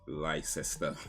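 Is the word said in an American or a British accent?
American. American accent, with more of the letters pronounced. "Whereas Americans would say Leicester"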